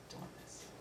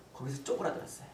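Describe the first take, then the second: First: Tiny, voiceless afterthought; whispered echo. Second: Said in the usual way. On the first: Real, not acted. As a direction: shrink the words down to a whisper. Hushed echo of shrinking feeling. (기어들어가듯 속삭이며 되뇌기)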